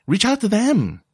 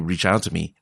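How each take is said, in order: First: Them lifted much higher with force; high punch on the word them; stress on them. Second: Said in the usual way. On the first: Shown as a demonstration. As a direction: land hard and high on them. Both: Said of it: "instead of saying".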